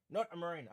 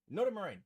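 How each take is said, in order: First: Said in the usual way. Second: Surprised. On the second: Real, not acted. Reading viewer's answer aloud.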